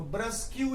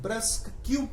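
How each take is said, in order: First: ब्रश said as "brush", no k sound; reading it as brush. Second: ब्रस्क said as "brusk", clear k at the end; proper pronunciation. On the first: Teacher showing students how to read the word as brush. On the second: Teacher giving students the proper reading brusk. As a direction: say ब्रस्क with the k sound. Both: Shown as a demonstration. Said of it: "वैसे तो ब्रस्क कहते हैं".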